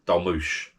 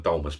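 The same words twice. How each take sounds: First: Dolmush, the final s turned into sh; proper pronunciation. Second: Dolmus said as spelt, ending in a plain s sound; spelling pronunciation. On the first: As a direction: say Dolmush the local way with sh at the end. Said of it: "it's pronounced Dolmush". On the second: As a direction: read Dolmus off the page with a hard s. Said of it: "it's spelt Dolmus". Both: Shown as a demonstration.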